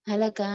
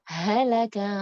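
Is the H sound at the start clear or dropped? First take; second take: dropped; clear. First: It is rushed and the H is barely heard. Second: It is unhurried and the H is clearly heard. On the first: The speaker calls it wrong. "H-nya nggak kedengeran" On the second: The speaker calls it right. "harusnya halaka an, jangan cepet-cepet"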